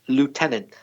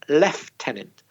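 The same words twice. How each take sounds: First: It is said without an F sound. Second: It is said with an F sound. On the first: "the logical one is" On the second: "some British people say lieutenant with a F sound in the middle"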